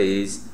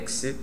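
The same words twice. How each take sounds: First: It sounds like the ordinary Portuguese prefix ex. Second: It sounds like the Latin pronunciation of ex. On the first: The speaker calls it wrong. "não é ex" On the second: The speaker calls it right.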